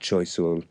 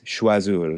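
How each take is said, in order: First: It is said with an English-style spelling pronunciation. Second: It is said with a French pronunciation. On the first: The speaker calls it wrong. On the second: The speaker calls it right. "So it's"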